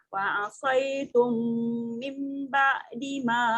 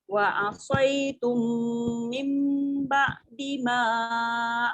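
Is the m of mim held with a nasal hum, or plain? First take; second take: plain; hummed. First: The m is short, without a held nasal hum. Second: The m is held with a nasal hum. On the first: The speaker calls it wrong. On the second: The speaker calls it right.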